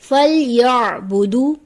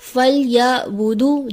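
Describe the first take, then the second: First: A throaty squeezed sound comes before budu. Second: A plain glottal catch comes before budu. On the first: The speaker calls it right. "दुरुस्त अदायगी है" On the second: The speaker calls it wrong. "आइन की जगह हमजा की आवाज आ जाती है"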